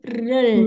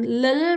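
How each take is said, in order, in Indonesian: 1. Suku kata ini diawali bunyi r dan diakhiri bunyi l. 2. Suku kata ini diawali dan diakhiri bunyi l. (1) "tapi rel" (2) "bukan lel"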